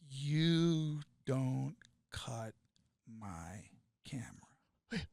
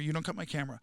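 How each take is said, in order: First: It is spoken at a normal volume. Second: It is screamed very loudly. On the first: "I won't scream" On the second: "But I'll scream the second part"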